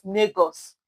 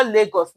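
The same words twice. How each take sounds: First: "Lagos" said as "Negos", an N in place of the L; "Lagos" pronounced "Negos", the local Edo way; Edo pronunciation. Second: Said in the usual way. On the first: Shown as a demonstration. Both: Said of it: "my people, they call Lagos".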